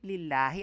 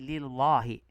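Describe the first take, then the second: First: The L sound is light and thin. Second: The L sound is heavy and thick. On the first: The speaker calls it right. "Kaya manipis" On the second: The speaker calls it wrong. "hindi lillahi"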